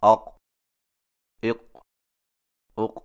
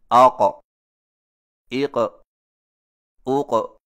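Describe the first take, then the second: First: اق with the ق swallowed and no echo; اق said wrongly without the bounce; weak qalqalah. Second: آق، ایق، اوق with the ق clearly echoing; آق، ایق، اوق recited with proper qalqalah; correct qalqalah on آق. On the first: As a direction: close اق flatly so the ق barely releases. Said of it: "اور یہ صحیح نہیں". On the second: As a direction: let the ق in آق، ایق، اوق bounce lightly on release. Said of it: "کو اس طرح پڑھا جاتا ہے". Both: Shown as a demonstration.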